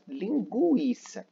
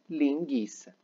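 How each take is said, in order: First: The u after the g is pronounced. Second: The u after the g is silent. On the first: The speaker calls it right. "tínhamos que falar a letra U" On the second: The speaker calls it wrong. "e não linguiça"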